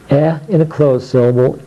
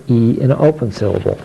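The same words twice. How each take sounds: First: E said "eh" as in Eddie; short E sound. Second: E said as its letter name, "ee"; long E sound. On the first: Teacher demonstrating closed syllables, E as short "eh". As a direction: say E short, not as the letter name. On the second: Teacher demonstrating open syllables, E as long "ee". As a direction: say E long, as in Pete. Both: Shown as a demonstration.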